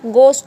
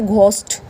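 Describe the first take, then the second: First: The first consonant is a plain g sound. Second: The first consonant is an aspirated gh sound. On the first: The speaker calls it right. "ये H silent होगा, गोस्ट होगा" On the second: The speaker calls it wrong. "ना कि घोस्ट"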